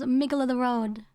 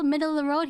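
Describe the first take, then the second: First: The middle consonant sounds like a g. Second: The middle consonant sounds like a d.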